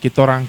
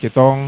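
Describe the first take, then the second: First: The phrase is said in full, two words. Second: The phrase is contracted into one short word. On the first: "Jadi kita orang" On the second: "diperpendek lah"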